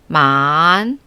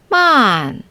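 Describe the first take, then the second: First: The pitch dips low, then rises again. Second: The pitch falls sharply from high to low.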